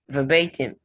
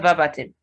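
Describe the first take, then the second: First: The stress is on the second syllable. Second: The stress is not on the second syllable. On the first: The speaker calls it right. "The second syllable is stressed in this word" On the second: The speaker calls it wrong. "So it's not verbatim"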